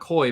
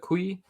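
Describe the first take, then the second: First: The word sounds like 'koi', rhyming with 'boy'. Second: The word sounds like 'kwee', ending in 'ee'. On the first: The speaker calls it wrong. "So not koi" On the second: The speaker calls it right. "but kui"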